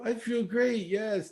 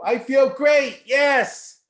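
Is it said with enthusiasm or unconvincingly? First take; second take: unconvincing; enthusiastic. First: It is said flatly, without conviction. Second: It is said with real enthusiasm.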